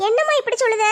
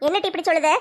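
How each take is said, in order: First: Put-on lightly raised girl's voice, என்னம்மா falling; the daughter answering her mother tenderly; lightly voiced teenage daughter; young daughter. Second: Said in the usual way. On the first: Daughter's version of line 6.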